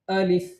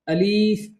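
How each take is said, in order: First: Both vowels are kept short. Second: The second vowel is drawn out long. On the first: The speaker calls it right. "सही क्या है?" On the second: The speaker calls it wrong. "ये भी गलत है"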